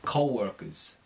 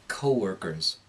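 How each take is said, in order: First: The vowel darkens before the long O. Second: The long O is clear and pure. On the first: "the New York accent, it's going to darken before the O" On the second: "with an American accent, you'll hear a clear long O"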